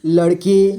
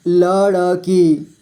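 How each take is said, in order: First: Said in the usual way. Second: लड़की slowly as ल, ड़, की; letter by letter. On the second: Shown as a demonstration. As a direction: give ड़ its own vowel in लड़की. (लड़की को तोड़कर: ल, ड़, की) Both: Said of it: "थोड़ा फास्ट पढ़ेंगे".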